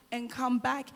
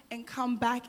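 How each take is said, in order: Both takes have the same delivery.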